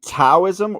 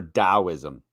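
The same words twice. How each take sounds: First: Taoism said with a hard T, as "Tow-ism"; T pronunciation. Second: Taoism said with a D, as "Dow-ism"; D pronunciation. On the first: Asking which way the guest says it, Taoism with a T. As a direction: start Taoism on a crisp T sound. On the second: Asking which way the guest says it, Taoism with a D. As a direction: start Taoism on a D sound, like "Dow". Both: Shown as a demonstration. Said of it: "are you saying Taoism or Taoism".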